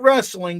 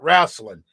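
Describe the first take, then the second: First: The word has the standard, everyday pronunciation. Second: The word has a folksy, dialect pronunciation. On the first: This is the ordinary name for the sport. "Not wrestling" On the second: This is the old-fashioned name for televised pro wrestling. "that's what my granddad called it"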